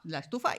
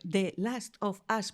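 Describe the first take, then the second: First: The words run together into one blurred chunk. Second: Each word is said clearly and separately. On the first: The speaker calls it wrong. "si lo digo todo seguido, digo la estufa" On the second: The speaker calls it right. "yo pronuncio The Last of Us"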